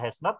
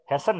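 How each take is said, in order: First: It is said as two full words. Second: It is said as one contracted word. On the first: "biasanya tidak dibaca has not" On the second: "tapi dibaca hasn't ya"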